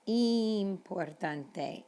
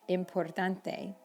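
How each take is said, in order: First: The first vowel is a pure Spanish 'ee' sound. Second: The first vowel is an English 'ih' sound. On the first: The speaker calls it right. "the letter I in Spanish is E" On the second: The speaker calls it wrong. "Lots of students say importante"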